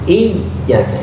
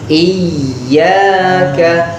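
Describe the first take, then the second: First: The doubled y is closed off completely. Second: The doubled y is held without closing off. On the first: The speaker calls it wrong. "jangan sampai tutup ... enggak" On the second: The speaker calls it right. "harus kita ditahan tapi jangan sampai tutup"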